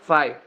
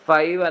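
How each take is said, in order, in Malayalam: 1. ഈ വാക്ക് ഘോഷമില്ലാത്ത f ശബ്ദത്തിലാണ് അവസാനിക്കുന്നത്. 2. ഈ വാക്ക് ഘോഷമുള്ള v ശബ്ദത്തിലാണ് അവസാനിക്കുന്നത്. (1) "ഒരു എഫ് പോലെയാണ് അതിന്റെ പ്രൊണൗൺസിയേഷൻ വരിക" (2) "ഫൈവ് അല്ല"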